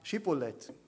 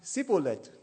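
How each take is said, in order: First: The word begins with a sh sound. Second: The word begins with an s sound. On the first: The speaker is from the south. The speaker calls it right. "die konnten das richtig sagen" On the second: The speaker is from the north. The speaker calls it wrong. "die vom Norden, die sagen Sibboleth statt Schibboleth"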